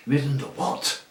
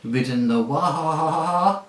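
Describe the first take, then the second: First: Scornful disbelief at the word; contempt. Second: Slow, high, louder words dissolving into a whinny; neighing horse. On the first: Horse scorning the boy who rode a donkey, contemptuous. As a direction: sneer the question at the boy. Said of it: "retorted the horse with extreme contempt". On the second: Angry talking horse to the boy, neighing the word. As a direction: let the last word turn into a long neigh. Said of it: "it came out in a sort of neigh". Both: A narrator's reading.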